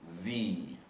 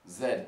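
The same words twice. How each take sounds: First: It is said the American way, as zee. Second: It is said the British way, as zed.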